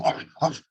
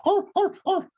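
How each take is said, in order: First: Plain dog arfs; normal dog bark. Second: Arfs shot way up high; squeaky frightened dog arfs; high anxious bark. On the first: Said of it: "What happens when a dog's voice goes from". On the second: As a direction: yelp like a scared dog. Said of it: "That pitch goes way up here". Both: Shown as a demonstration.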